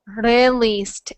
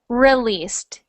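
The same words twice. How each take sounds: First: The first R has a slight tap. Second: The first R is smooth with no tap. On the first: The speaker calls it wrong. "Your tongue is trying to make the R sound, but it is touching very, very, very slightly at the top of your mouth" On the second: The speaker calls it right. "it's not brushing against the top of my mouth"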